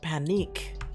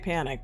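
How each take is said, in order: First: The name ends with a long 'eek' sound. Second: The name ends with a short 'ick' sound. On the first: This is how the other person says the name. "but you're like panique" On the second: This is how the speaker says the name. "I still say panic"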